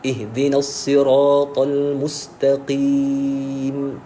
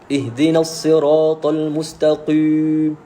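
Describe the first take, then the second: First: The final long vowel is said lightly. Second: The final long vowel is pressed too heavily. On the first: The speaker calls it right. "Ringan saja" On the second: The speaker calls it wrong. "Terlalu tekan pada ya mat itu. Jadi salah"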